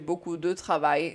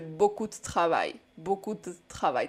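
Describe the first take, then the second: First: The vowel in 'de' is fully pronounced. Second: The vowel in 'de' is dropped and shortened. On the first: This sounds a bit like a southern accent. The speaker calls it wrong. "není to úplně francouzsky, je to takový trošku přízvuk do jihu" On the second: This is the everyday spoken form. The speaker calls it right. "to takhle zkrátíme"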